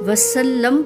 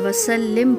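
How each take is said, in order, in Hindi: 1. अंतिम 'm' से पहले का स्वर 'a' है। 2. अंतिम 'm' से पहले का स्वर 'i' है। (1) "लाम पर ज़बर पढ़ा जाए" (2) "लाम पर ज़ेर पढ़ा जाए"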